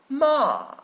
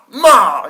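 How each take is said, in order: First: The falling syllable is said softly and gently. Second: The falling syllable is shouted very forcefully. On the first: The speaker calls it right. "we can do it in a gentle way" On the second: The speaker calls it wrong. "you're just shouting our freaking lungs out"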